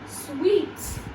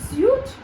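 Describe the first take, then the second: First: The word sounds exactly like 'sweet'. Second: The word does not sound like 'sweet'. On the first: The speaker calls it right. "remember W E over here" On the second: The speaker calls it wrong. "instead of saying suite"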